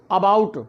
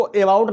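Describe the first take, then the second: First: अबाउट with a short अ at the start, uh-bout; correct pronunciation. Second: अबाउट with a long ए at the start, like ay-bout; wrong pronunciation. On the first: Teacher gives the right reading of अबाउट. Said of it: "अ बोलेंगे". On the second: Teacher shows the wrong reading of अबाउट. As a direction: read अबाउट the wrong way, as ए-बाउट. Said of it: "इसको अबाउट नहीं पढ़ेंगे". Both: Shown as a demonstration.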